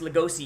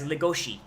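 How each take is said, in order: First: It is said with a plain s sound. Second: It is said with an sh sound. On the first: The speaker calls it right. "you mispronounce Legosi" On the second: The speaker calls it wrong. "with the Japanese accent, ... mispronounce Legosi as Legoshi"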